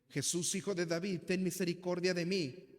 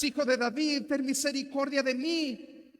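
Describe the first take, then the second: First: Said in the usual way. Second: High, very loud pleading shout; crying out much more. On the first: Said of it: "Dice el pasaje que gritó". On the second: Acted. Beggar crying out over those rebuking him, very loud plea. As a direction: cry out even harder than before the crowd. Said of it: "pero él clamaba mucho más".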